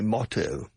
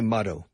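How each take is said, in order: First: It is said in a British accent. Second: It is said in an American accent. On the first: "the British say motto" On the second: "the Americans say motto"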